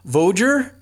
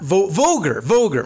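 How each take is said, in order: First: The g is soft, French-like. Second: The g is hard, as in go. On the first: The speaker calls it wrong. "I do love your French pronunciation" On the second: The speaker calls it right. "it's a hard G"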